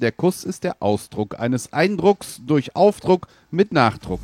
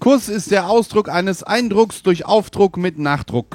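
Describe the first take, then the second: First: It is said slowly. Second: It is said at normal speed.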